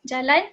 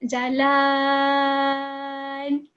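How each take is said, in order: First: The vowel is held short. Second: The vowel is held very long. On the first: "one harakat" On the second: "five harakat"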